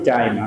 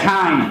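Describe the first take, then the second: First: The t is said without a puff of air. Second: The t is said with a strong puff of air. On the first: The speaker calls it wrong. "আমরা বলি টাইম, আসলে টাইম না" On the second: The speaker calls it right. "উচ্চারণটা কি হবে? টাইম"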